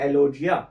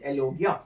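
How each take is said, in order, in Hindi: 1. बीच का व्यंजन नरम 'j' ध्वनि है। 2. बीच का व्यंजन कड़ा 'g' ध्वनि है।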